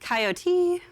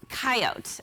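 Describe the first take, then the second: First: The word is said with three syllables. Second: The word is said with two syllables. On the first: "the three-syllable coyote, which I say" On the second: "the two-syllable um, coyote"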